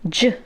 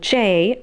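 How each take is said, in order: First: The letter is said as its phonetic sound. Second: The letter is said as its alphabet name. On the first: "I said J. ... Basically phonetics" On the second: "Instead of saying J"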